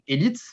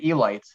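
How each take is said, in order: First: It is pronounced with a French pronunciation. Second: It is pronounced with an English pronunciation. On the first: "in French we would pronounce it élite" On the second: "if you were really to use the English way of pronouncing it, you would say elite"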